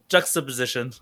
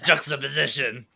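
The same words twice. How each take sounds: First: It is said without a Mexican accent. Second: It is said with a Mexican accent.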